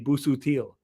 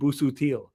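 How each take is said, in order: First: The surname has a Maltese pronunciation. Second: The surname has a Maltese pronunciation.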